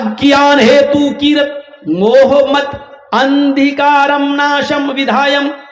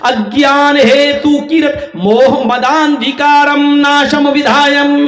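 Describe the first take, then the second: First: The words are read separately, not merged. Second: The words are merged, with sounds run together. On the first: "पहले हम आपको अलग अलग बता रहे हैं।" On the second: "अब इसको मिलाकर इसके उच्चारण को यूं पढ़ा जाएगा"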